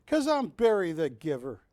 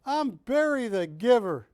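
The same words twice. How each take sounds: First: Said in the usual way. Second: "Barry" punched higher and louder, falling at the end; proud emphasis. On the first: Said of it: "repeats his title". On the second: Shown as a demonstration. Auctioneer announcing his nickname to bidders, proudly stressed. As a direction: proclaim "Barry the Giver" like a grand title. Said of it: "repeats his title louder".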